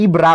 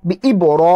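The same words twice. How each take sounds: First: ইবরা with a light, open "ra" instead of "ro"; ইবরা misread with an unrounded a after the r; mistaken thin R. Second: বি ই বড় with a full, rounded "ro", held; heavy R. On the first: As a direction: say ইবরা short, ending in plain "raa". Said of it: "ইবরা পড়লে হবে না". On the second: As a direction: thicken the r in বড় to "ro", not "ra". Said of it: "এই যে র পড়ছি আমি". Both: Shown as a demonstration.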